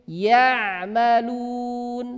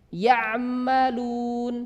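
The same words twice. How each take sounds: Both takes have the same delivery.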